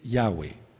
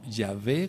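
First: The middle consonant is a W sound. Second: The middle consonant is a V sound. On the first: The speaker calls it right. "la Vav suena como W" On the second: The speaker calls it wrong. "no Yahvé como lo hacen los católicos romanos"

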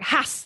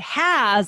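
First: The vowel is cut short. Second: The vowel is held longer. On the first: The speaker calls it wrong. "that shortens that vowel sound" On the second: The speaker calls it right. "it causes us to extend it and say it correctly"

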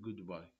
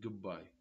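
First: The d sound is pronounced fully. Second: The d blends into the following sound. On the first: "ما نقول goodbye" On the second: "شايفين مرات نقول goodbye"

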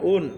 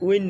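First: The syllable is a plain vowel, sounding like 'oon'. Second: The syllable has a glide, sounding like 'ween'. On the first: The speaker calls it right. "না উন" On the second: The speaker calls it wrong. "উইন না"

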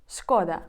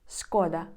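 The two takes are said the same way.

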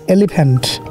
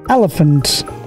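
First: It is said in a Bangladeshi accent. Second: It is said in a British accent. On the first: "Bangladesh bole elephant"

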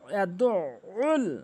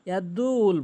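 First: The word has a throat 'ain' sound in it. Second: The word is said without the throat 'ain' sound. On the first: The speaker calls it right. "এভাবে উচ্চারণ করতে হবে" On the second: The speaker calls it wrong. "আইনের উচ্চারণ আমরা এখানে আনেই না"

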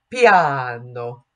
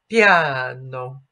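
First: It is said in a careful Italian way. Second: The same.

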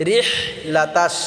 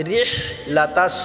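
No difference in how they are said.

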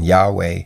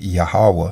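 First: The name is said with two syllables. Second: The name is said with three syllables. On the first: "they will pronounce it with two syllables like in Yahweh" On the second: "or three syllables like in Yahweh"

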